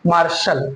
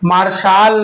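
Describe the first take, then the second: First: The second vowel is a short reduced sound. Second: The second vowel is a full long 'aa'. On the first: The speaker calls it right. "क्योंकि अल आएगा यहाँ" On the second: The speaker calls it wrong. "मार्शल में मार्शाल नहीं"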